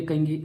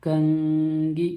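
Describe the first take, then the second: First: Said in the usual way. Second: कंगी very slow, n hidden in the nose; said slowly. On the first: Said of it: "कंगी बोलिए". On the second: Shown as a demonstration. Teacher slowly models कंगी for students, nasal n. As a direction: draw out कंगी with a nasal hum. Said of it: "कंगी को थोड़ा slow से बोलिए".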